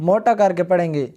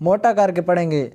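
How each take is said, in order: The two takes are said the same way.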